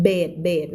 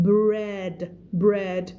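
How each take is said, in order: First: "bed" for bread, the r missing; common mispronunciation. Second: "bread" with a clear br blend; correct pronunciation. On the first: Teacher showing learners the common mistake, r-less "bed". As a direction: drop the r, saying "bed". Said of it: "แต่ผิดเยอะนะ". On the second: Teacher correcting learners, "bread" carefully modelled with its r. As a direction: keep the r in "bread", said slowly. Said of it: "no no". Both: Shown as a demonstration.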